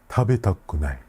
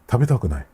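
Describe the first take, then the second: First: The word is said more slowly. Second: The word is said very quickly. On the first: "I will say it a little bit slower" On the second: "I said that word really quickly"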